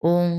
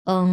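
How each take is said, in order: First: ওং with fully rounded lips. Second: ওং with lightly spread lips, like অ; slight-smile ওং. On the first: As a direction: say ওং through a round mouth. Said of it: "round shape হতে হবে". (ঠোঁট গোল করে ওং) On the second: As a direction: say ওং through a slight smile, teeth just showing. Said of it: "মুখটা হচ্ছে হালকা স্মাইলের মতো". (হালকা হেসে দাঁত বের করে ওং) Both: Shown as a demonstration.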